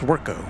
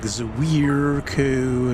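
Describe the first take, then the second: First: The name is said with a simple, relaxed opening. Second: The name is said with an overdone, effortful opening. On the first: The speaker calls it right. "it's just it's just Swerko" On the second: The speaker calls it wrong. "they try to overpronounce it"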